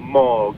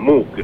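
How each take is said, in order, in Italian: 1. La vocale è una 'oh' profonda. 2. La vocale è un suono 'oo'. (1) "con le due O, una O profonda" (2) "tutti quanti pronunciano Moog, e invece no"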